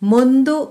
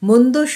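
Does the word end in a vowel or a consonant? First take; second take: vowel; consonant. First: The word ends with a final o vowel. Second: The word ends on the d consonant. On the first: It means slow. "অকার। মন্দ অর্থ এখানে ধীর" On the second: It means bad. "মন্দ শব্দটির অর্থ খারাপ"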